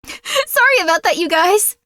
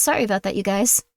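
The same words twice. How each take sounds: First: Laughing apology. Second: Said in the usual way. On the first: Real, not acted.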